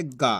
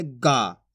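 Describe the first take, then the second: First: "गा" with a short, unstretched a; simple short vowel. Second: "गा" stretched into a long aa; drawn-out vowel. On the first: Teacher reading the bare letter, short "गा". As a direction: say "गा" simply and briefly. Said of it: "इसको तो simple पढ़ेंगे". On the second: Teacher reading the added vowel sign, drawn-out "गा". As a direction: draw out the "गा". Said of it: "खींच के पढ़ देंगे". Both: Shown as a demonstration.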